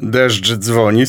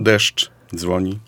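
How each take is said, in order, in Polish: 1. Te dwa słowa wymawiane są razem, bez pauzy. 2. Pauza rozdziela te dwa słowa. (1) "Kiedy powiem deszcz dzwoni" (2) "kiedy wymawiamy z pauzą"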